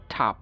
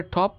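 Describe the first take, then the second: First: American ঠাপ (top) as TAHP; American pronunciation. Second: British টপ with rounded O; British pronunciation. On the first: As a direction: open AH in ঠাপ. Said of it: "আমেরিকানরা". (ঠাপ-এ আ, American উচ্চারণ) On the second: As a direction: say টপ as TOP, lips rounded. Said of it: "ব্রিটিশরা বলে". (টপ-এ অ, British উচ্চারণ) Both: Shown as a demonstration.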